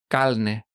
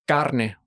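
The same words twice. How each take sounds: First: The middle consonant sounds like an l. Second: The middle consonant sounds like an r.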